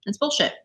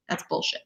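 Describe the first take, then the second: First: Said in the usual way. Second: Whisper. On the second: Real, not acted. Repeats a dismissal, first hushed.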